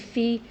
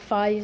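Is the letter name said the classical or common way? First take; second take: classical; common. First: The letter name uses a classical Greek pronunciation. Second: The letter name uses the common modern pronunciation. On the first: "I use classical pronunciations. I say" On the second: "and not"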